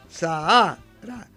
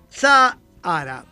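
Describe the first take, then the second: First: The stress falls on the middle syllable. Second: The stress does not fall on the middle syllable. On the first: This is the traditional pronunciation. "la acentuación tradicional de este nombre geográfico, es grave" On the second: This is how it is said today in Spain and elsewhere. "en España u otros países de habla hispana, se dice hoy"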